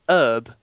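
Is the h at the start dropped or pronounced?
dropped. The word starts without an h sound. This is how Americans say it. The speaker calls it wrong.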